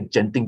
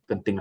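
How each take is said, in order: First: The name is said with the foreigners' pronunciation. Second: The name is said the usual local way. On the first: "They say Genting" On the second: "they don't pronounce it as Genting"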